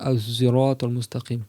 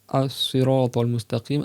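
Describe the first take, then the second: First: The word begins with an emphatic z sound. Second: The word begins with an emphatic s sound. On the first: "avec un zay emphatique" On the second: "un S plus emphatique"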